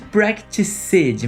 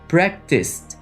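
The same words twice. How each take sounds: First: The ending is an extra syllable, like 'practices'. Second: The ending is a short T sound. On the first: The speaker calls it wrong. "Não existe practiced" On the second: The speaker calls it right. "mas sim practiced"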